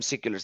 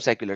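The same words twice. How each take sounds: First: The first syllable is said like 'sick'. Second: The first syllable is said as usual, 'sec'. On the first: The people are called sick. "They're they're sick, S I C K" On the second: The ordinary name for secular people. "I don't call them seculars"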